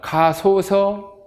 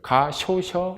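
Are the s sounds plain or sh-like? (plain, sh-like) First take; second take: plain; sh-like. First: The s sounds are plain, not sh-like. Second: The s sounds are sh-like, palatalized. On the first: "가소서 해야 되는데" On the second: "쇼, 이것을 써버리면 가쇼셔 이렇게 되죠"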